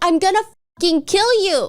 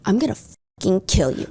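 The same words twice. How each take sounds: First: It is said in a desperate, frantic tone. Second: It is said in a dark, sinister tone.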